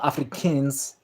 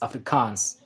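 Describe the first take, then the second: First: It sounds like the English word Africans. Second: It ends in a drawn-out 'kaans' sound. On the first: The speaker calls it wrong. "It's not Africans" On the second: The speaker calls it right. "It's Afrikaans"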